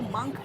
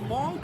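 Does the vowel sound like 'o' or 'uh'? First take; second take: uh; o. First: The vowel sounds like 'uh'. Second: The vowel sounds like 'o'. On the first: The speaker calls it right. "इसको मंक कहते हैं" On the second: The speaker calls it wrong. "इसको मोंक नहीं कहते"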